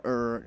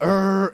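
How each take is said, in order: First: Low, soft "er" growl; small stomach growl. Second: Big rumbling "er" like an earthquake; loud stomach growl. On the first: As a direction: imitate a modest little belly rumble. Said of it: "it's not just, like, you know". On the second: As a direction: imitate a huge belly rumble. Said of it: "It's loud". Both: Retold or imitated.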